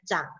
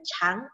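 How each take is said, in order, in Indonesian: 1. Dibacanya dengan nada yang artinya tumbuh. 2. Dibacanya dengan nada yang artinya panjang. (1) "Kalau dia dibaca chang artinya tumbuh" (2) "kalau dibaca chang artinya panjang"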